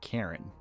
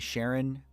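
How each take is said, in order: First: The name begins with a k sound. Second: The name begins with an sh sound.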